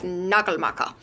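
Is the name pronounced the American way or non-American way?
non-American. The name is said with a non-American pronunciation. The speaker calls it right. "But I'm pretty sure it's Nagelmacher"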